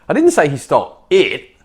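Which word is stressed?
it. The stress is on it.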